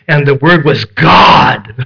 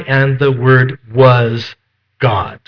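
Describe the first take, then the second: First: The voice is raised to emphasize God. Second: No word is given special emphasis. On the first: "We raise our voice" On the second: "The way it should read is just how we have it in all of the other translations"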